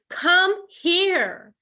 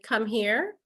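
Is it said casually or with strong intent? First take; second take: strong intent; casually. First: It is said firmly, with strong intent. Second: It is said casually, without much intent.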